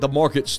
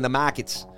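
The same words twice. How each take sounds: First: It is said without a Boston accent. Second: It is said with a Boston accent. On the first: "Shedding that Boston accent" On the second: "When you grew up saying the markets"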